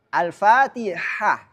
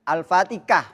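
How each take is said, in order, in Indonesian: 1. Bunyi h di tengah itu ringan dan berdesah. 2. Bunyi h di tengah itu lebih kasar dan berbeda. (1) "harus pakai ha kecil" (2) "jangan sampai"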